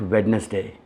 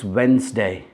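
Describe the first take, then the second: First: The D in the middle is sounded. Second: The D in the middle is silent. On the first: The speaker calls it wrong. "It's not Wednesday" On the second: The speaker calls it right. "The D in that word is actually silent"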